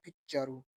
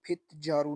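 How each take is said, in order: First: फिचारू with a tense unvoiced ch; फिचारू with cha in place of ja; correct reading. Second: फितजारू with separate t and voiced j; wrong reading. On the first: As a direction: run t and j together into ch: फिचारू. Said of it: "इसको पढ़ना है फिचारू". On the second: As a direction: say फितजारू letter by letter, t then ja. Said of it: "इसको फितजारू नहीं पढ़ना". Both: Shown as a demonstration.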